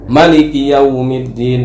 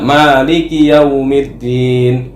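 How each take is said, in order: First: The first vowel of Maliki is short. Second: The first vowel of Maliki is long. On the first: "Dia baca pendek" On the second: "Kita kan baca Maliki Yaumiddin"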